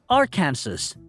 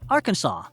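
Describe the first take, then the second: First: The word ends sounding like Kansas. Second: The word ends not sounding like Kansas. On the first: The speaker calls it wrong. "seems like a phonetic twin of Kansas, but most tourists pronounce it as Arkansas" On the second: The speaker calls it right. "The legally correct pronunciation is Arkansas"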